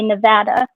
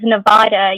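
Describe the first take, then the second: First: It is pronounced the way locals say it. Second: It is pronounced the way newcomers say it. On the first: The speaker is from there. "all the locals say Nevada" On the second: The speaker is not from there. "if anybody in Nevada says Nevada, you know they're not from there"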